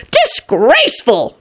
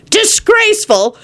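First: Snapped disgust. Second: High drawn-out disgust; mock outrage. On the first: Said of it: "John snapped". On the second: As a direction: condemn it slowly. John condemns the drinking. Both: A narrator's reading.

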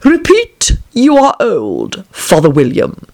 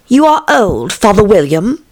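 First: Slow, drawn-out caterpillar order; commanding caterpillar. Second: Put-on high, brisker girlish recitation; poem recitation. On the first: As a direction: dictate the title word by word, starting high. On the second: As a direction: recite it as Alice starting her verse. Alice begins reciting the poem. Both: A narrator's reading.

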